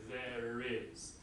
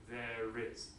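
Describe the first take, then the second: First: An R sound links the two words. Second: An R sound links the two words.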